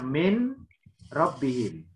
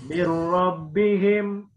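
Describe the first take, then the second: First: The n sound is heard before the r. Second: The n merges into the r without nasal hum.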